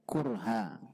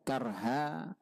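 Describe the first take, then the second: First: The first vowel is a rounded u sound. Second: The first vowel is an open a sound. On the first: It means with hardship and burden. "ada kurha" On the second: It means by force. "Karha itu ada dua cara membacanya. Ada karha"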